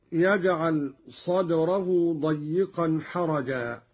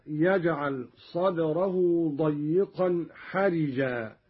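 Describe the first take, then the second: First: Said in the usual way. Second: حرجا said "harijaa", an i after the r; kasra on raa. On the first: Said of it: "قرأ قالون بكسر الراء". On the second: Shown as a demonstration. Teacher demonstrating Qalun's reading, حرجا with kasra on raa. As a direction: turn the raa of حرجا into ri, not ra. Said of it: "قرأ قالون بكسر الراء هكذا".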